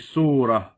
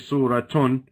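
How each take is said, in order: First: The word ends with a short 'ah' sound. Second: The word ends with a 't' and '-un' sound. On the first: The speaker calls it right. "you say surah. Your ta marbuta turns into a ha" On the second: The speaker calls it wrong. "You don't say suratun"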